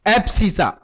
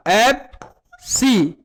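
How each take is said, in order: First: Said in the usual way. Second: एब्सिसा stretched slowly, each syllable apart; slow spelled-out term. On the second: Shown as a demonstration. Teacher spells the new word out slowly for pupils.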